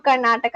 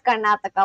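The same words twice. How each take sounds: First: Said in the usual way. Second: Second Karnataka in a Spanish accent; Spanish-style t in Karnataka. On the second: Shown as a demonstration. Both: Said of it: "calling out Karnataka as Karnataka".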